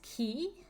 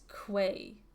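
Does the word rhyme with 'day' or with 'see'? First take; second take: see; day. First: The word ends in an 'ee' vowel. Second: The word ends in an 'ay' vowel. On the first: The speaker calls it right. "It's Key?" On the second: The speaker calls it wrong. "I always pronounce this as Quay"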